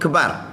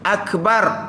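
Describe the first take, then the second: First: The opening glottal vowel of the word is dropped. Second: The opening glottal vowel of the word is kept. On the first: The speaker calls it wrong. "Jangan Allah kebar" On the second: The speaker calls it right. "Hamzah jangan buang"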